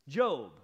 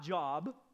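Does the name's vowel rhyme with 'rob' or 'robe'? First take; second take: robe; rob. First: The vowel is long, rhyming with 'robe'. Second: The vowel is short, rhyming with 'rob'. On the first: The speaker calls it right. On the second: The speaker calls it wrong.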